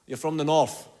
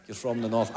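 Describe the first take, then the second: First: Said in the usual way. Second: Put-on low, quieter echo in a northern Irish accent; mock northern accent. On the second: Comic repeating an audience member's northern accent, low and mock. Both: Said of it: "That's an accent, isn't it?".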